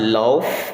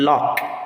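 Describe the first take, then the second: First: The word ends with an F sound. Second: The word ends with a K sound. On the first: The speaker calls it wrong. "thinking that the G H there will give us the consonant sound" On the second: The speaker calls it right. "the consonant sound represented by letter K"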